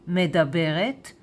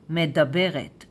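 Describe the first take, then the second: No difference in how they are said.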